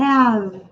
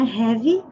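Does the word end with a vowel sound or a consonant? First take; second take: consonant; vowel. First: The word ends on the consonant, no vowel. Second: The word ends with an extra vowel sound. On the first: The speaker calls it right. "sem falar a letra E" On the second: The speaker calls it wrong. "não é have"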